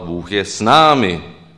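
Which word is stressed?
námi. The stress falls on the word námi. God is with us rather than anyone else. "Možná bychom mohli akcentovat Bůh je s námi. S kým jiným"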